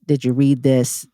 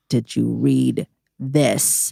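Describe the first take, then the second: First: Said in the usual way. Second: "Did you read this?" dragged out slow, each word spaced apart; every word of "Did you read this?" leaned on slowly; slow pointed repeat. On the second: Retold or imitated. Fed-up teacher to a lazy student, slow and pointed.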